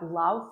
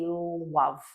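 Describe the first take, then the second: First: It begins with a clear L sound. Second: It begins with rounded lips, a W sound.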